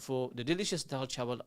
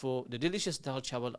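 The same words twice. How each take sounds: First: It is read in an English accent. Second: It is read in an English accent.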